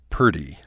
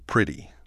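First: The first vowel sounds like 'er'. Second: The first vowel sounds like 'ih'. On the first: "We often say purty" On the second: "for pretty"

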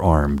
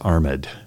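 First: The word is said as a single syllable. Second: The ending is sounded as a separate syllable. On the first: "we say they're armed" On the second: "we don't say someone is armed"

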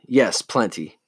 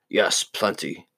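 First: It is said in his natural voice. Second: It is said in a Scar impression.

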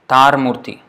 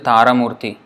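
First: No vowel is pronounced at the end of 'tar'. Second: A vowel is pronounced at the end of 'tar'. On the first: The speaker calls it right. "No, tar murti" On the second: The speaker calls it wrong. "They don't say tara murti"

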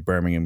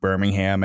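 First: It is said the English way, no h sound. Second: It is said the American way, with h sound.

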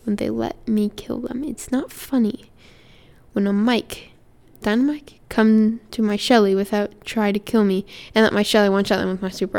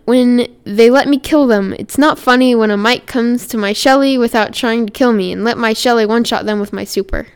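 First: It is read slowly. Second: It is read fast.

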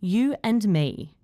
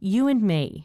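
First: The words are said separately, one by one. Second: The words are joined by a gliding W sound. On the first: "I'll first say the words individually" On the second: "then with intrusion"

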